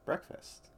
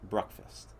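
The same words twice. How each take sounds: First: The first syllable sounds like 'brek'. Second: The first syllable sounds like 'bruh'. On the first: "That's the correct pronunciation?" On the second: "or as my mother puts it, ... where does the bruh come from?"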